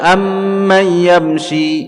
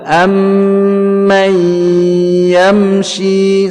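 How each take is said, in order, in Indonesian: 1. Bunyi sengau itu dipotong pendek, tidak ditahan. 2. Bunyi sengau itu ditahan selama tiga ketukan. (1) "tidak boleh dibaca" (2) "idgham bighunnah, satu dua tiga"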